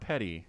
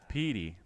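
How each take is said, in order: First: The first vowel is short, not an ee sound. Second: The first vowel is a long ee sound. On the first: The speaker calls it wrong. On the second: The speaker calls it right. "the one E E sound"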